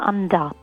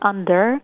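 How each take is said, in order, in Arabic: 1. الكلمة بتتنطق بلكنة أسترالية. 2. الكلمة بتتنطق بلكنة مش أسترالية.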